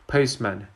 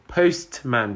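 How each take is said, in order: First: The t sound is dropped. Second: The t sound is pronounced.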